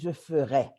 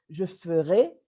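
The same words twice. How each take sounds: First: The final vowel is open, mouth wider open. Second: The final vowel is closed, mouth less open. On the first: It is the conditional. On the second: It is the future tense.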